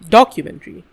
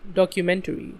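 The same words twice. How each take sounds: First: The stress is on the first syllable. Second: The stress is on the third syllable. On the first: The speaker calls it wrong. "I put it on doc. That's not right" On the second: The speaker calls it right. "Stress goes on meant"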